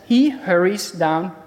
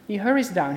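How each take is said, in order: First: Verse read out with emphasis; reading the verse aloud. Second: Said in the usual way. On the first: Shown as a demonstration. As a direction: read "He hurries down" slowly with weight on "He". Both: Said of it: "And it says".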